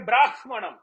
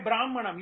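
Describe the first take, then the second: First: The h sound in the cluster stays h-like. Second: The h sound in the cluster becomes m-like. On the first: This follows the Vedic recitation rule. The speaker calls it right. "you say Brahmanam" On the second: This follows the classical grammar rule. The speaker calls it wrong. "you don't say Brahmanam"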